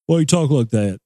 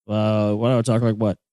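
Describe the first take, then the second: First: Hillbilly local. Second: Said in the usual way. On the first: Retold or imitated. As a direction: sneer it like a backwoods local. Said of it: "hillbilly, podunk places". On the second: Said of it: "you're like".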